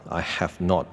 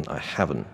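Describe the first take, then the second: First: Said in the usual way. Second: "have not" merged into "haven't"; contracted. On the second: Shown as a demonstration. Teacher shows learners shortened forms, contracted. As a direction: say HAVEN'T as one contracted word. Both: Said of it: "变成".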